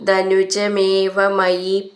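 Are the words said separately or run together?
run together. The words are run together without breaks.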